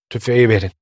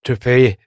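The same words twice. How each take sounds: First: A touch of a moan, urgent; mild moaning demand; moaning plea. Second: A mild moan, falling off; understated moaning plea; moaning repeat. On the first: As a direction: plead weakly for the rifle. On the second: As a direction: repeat it weaker, a half-moan. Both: A narrator's reading. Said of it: "diye inledi".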